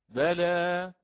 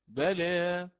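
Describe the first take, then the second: First: The final vowel is a fully open a. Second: The final vowel is slightly tilted toward e. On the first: "بوجه الفتح" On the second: "هكذا بالتقليل"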